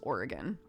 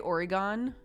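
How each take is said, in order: First: The word is pronounced the way locals say it. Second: The word is pronounced the way outsiders say it. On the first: The speaker is from Oregon. The speaker calls it right. "everyone in Oregon says Oregon" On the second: The speaker is not from Oregon. The speaker calls it wrong. "If you say Oregon, we know you're not from there"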